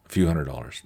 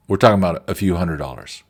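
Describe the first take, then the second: First: Lower, softer repeat of the amount; quiet echo. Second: Said in the usual way. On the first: Real, not acted. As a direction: say it again under your breath, downplaying. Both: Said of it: "repeating the small amount".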